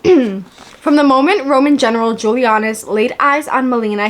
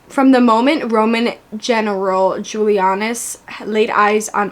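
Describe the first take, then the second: First: It is read in a natural, expressive voice. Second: It is read in a flat, robotic voice.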